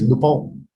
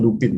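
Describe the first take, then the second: First: The name is said with a French pronunciation. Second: The name is said with an English pronunciation. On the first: The speaker calls it right. "it's actually French. The pronunciation is Lupin" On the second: The speaker calls it wrong. "it's not Lupin"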